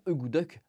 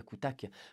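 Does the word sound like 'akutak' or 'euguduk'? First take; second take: euguduk; akutak. First: It sounds like 'euguduk', with voiced consonants. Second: It sounds like 'akutak', with hard consonants. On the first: This is the proper native pronunciation. The speaker calls it right. "qui se prononce d'ailleurs euh, normalement" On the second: This is a deliberately mangled French pronunciation. The speaker calls it wrong. "j'adore prononcer akutak, parce que je suis un Français débile qui aime prononcer mal les choses"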